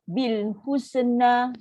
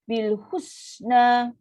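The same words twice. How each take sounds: First: The s sound is cut off abruptly. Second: The s sound is a long, released hiss. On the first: The speaker calls it wrong. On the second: The speaker calls it right. "itu angin lepas, angin yang panjang"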